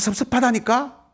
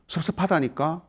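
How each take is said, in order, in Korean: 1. 목소리를 확 높여서 말해요. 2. 차분하고 조용한 목소리로 말해요.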